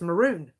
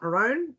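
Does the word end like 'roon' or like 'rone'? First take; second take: roon; rone. First: The last syllable sounds like 'roon'. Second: The last syllable sounds like 'rone'. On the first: The speaker calls it right. "People um, corrected me. It's maroon" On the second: The speaker calls it wrong. "not maroon. I remember spelling it M A R O N E"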